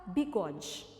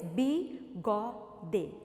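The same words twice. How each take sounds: First: Said in the usual way. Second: BIGODE split as bi, go, de with clear pauses; syllable by syllable. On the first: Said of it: "quantas sílabas?". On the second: Shown as a demonstration. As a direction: say "Bigode" in three separate beats, final "de" fully sounded. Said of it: "Tem uma sílaba, duas ou três?". ("Bigode" sílaba por sílaba: bi, go, de, com pausas)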